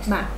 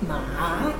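First: The pitch falls in a short, quick drop. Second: The pitch dips and then rises higher. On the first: The speaker calls it right. "it's just really short and down" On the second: The speaker calls it wrong. "Starts a little below the middle of the voice, falls immediately, rises higher"

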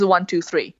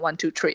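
First: It has an American accent, with a th sound. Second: It has an Irish accent, three sounding like tree.

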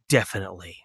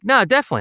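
First: It sounds stiff and serious. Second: It sounds casual and conversational.

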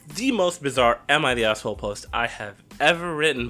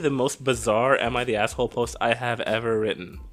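First: It is read with lively, energetic delivery. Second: It is read in a plain, flat way.

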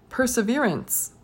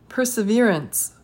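The two takes are said the same way.

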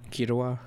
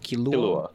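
First: The name is said with a Japanese R sound. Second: The name is said with an English L sound. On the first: "pronounce it like the Japanese way" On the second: "I think it's pronounced Killua"

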